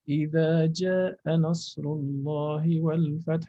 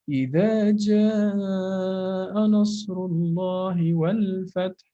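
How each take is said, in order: First: The vowel in jaa is cut short. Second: The vowel in jaa is held long. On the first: The speaker calls it wrong. "You cannot say" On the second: The speaker calls it right. "it has to be either four or five, but at least four"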